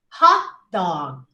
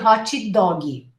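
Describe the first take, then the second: First: The words end on their final consonants. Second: Each word ends with an added vowel sound. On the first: The speaker calls it right. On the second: The speaker calls it wrong.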